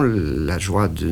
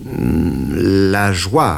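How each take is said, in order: First: La joie drawn out slowly, trailing off; groping for the word joie; slow hesitant la joie; halting search for words. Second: La joie said firmer and a bit louder, falling; confident la joie; firmer repeat. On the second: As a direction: settle on the word joie. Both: A narrator's reading. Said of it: "répétai-je".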